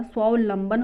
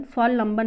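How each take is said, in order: First: स्वावलंबन with va before lam; correct form. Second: स्वालंबन without the second v; incorrect form. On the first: Teacher giving the correction, स्वावलंबन with va. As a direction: say स्वावलंबन as swaa-va-lam-ban. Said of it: "स्वावलंबन होता है". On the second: Teacher rejecting the misspelling, स्वालंबन lacking va. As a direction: say स्वालंबन as swaa-lam-ban. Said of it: "स्वालंबन नहीं होता". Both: Shown as a demonstration.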